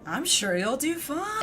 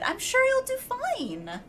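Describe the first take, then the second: First: It is said in a sarcastic tone. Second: It is said in a peppy, friendly tone.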